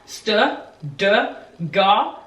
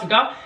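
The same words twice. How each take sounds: First: The syllables are said slowly. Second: The syllables are said quickly. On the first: "practice saying it faster and faster and faster" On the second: "and get faster and faster and faster"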